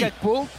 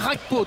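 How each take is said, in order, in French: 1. Il commence par un simple G dur. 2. Il commence par un son guttural à la néerlandaise. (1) "Je vais dire Gakpo" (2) "je vais pas la jouer Rakpo"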